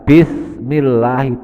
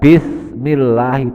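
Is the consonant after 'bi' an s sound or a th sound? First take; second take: th; th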